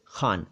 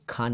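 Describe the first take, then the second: First: खान with a throaty fricative kh, xaan; correct Khan. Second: खान with a hard aspirated kh, kʰaan; wrong Khan. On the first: (सही उच्चारण: ख़ान, नुक्ते के साथ) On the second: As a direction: say खान as kʰaan, not throaty. (ग़लत उच्चारण: खान, बिना नुक्ते के) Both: Shown as a demonstration. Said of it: "खान नहीं, खान".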